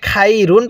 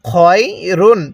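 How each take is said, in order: First: The first syllable sounds like 'khai'. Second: The first syllable sounds like 'khoy'. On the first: The speaker calls it wrong. "খয়া জবর খাই পড়ি" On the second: The speaker calls it right. "খয় রুন কিভাবে পড়ব?"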